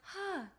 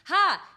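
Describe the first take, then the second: First: It is in a high head voice. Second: It is in a low chest voice.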